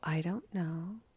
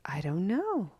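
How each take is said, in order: First: It is said in a soft, gentle tone. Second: It is said in a curious, wondering tone. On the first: "Or you can be gentle" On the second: "You can be curious"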